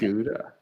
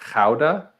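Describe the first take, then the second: First: It is said with the usual English pronunciation. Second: It is said with the Dutch pronunciation.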